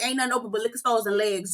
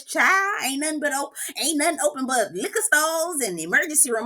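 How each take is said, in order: First: Said in the usual way. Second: Mock Southern accent, pitched a little up; put-on Southern accent. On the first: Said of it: "That's how you say it". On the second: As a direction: imitate someone laying on a Southern accent. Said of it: "carry on with that Southern accent".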